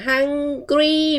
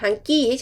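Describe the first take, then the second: First: The word is said with a clear r sound. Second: The word is said without any r sound. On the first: The speaker calls it right. "ต้องออกเสียง hungry มี r นะคะ" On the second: The speaker calls it wrong. "hungry เฉยๆไม่ได้นะ"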